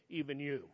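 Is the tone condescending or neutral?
neutral. It is read in a plain, neutral tone.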